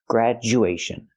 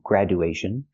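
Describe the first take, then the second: First: The middle consonant is a hard j sound. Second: The middle consonant is a plain d sound. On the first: The speaker calls it right. "we say grad, j, make that hard sound" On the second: The speaker calls it wrong. "We don't say gradu"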